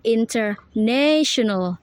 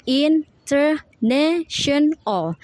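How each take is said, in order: First: "international" joined up, NA long and strong; stress on NA. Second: "international" slow, higher, every syllable apart. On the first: Student showing primary stress, NA leaned on in "international". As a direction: lean on NA in "international". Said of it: "the primary stress is ne". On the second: Student showing the syllables, "international" slow and separated. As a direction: break "international" into in, ter, na, tion, al. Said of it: "is the syllables". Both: Shown as a demonstration.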